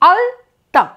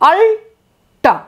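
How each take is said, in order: First: The l is dental, tongue against the teeth. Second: The l is retroflex, tongue curled back. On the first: The speaker calls it right. "আলতা হচ্ছে দন্তকে স্পর্শ করে দন্ত ল" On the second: The speaker calls it wrong. "জিভটাকে যদি গুটিয়ে মূর্ধায় লাগিয়ে"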